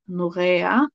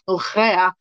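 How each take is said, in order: First: The name is said with Swedish pronunciation. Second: The name is said with non-Swedish pronunciation. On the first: The speaker calls it right. "in Swedish it is Norea" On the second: The speaker calls it wrong. "said it incorrectly, so I was like Norea"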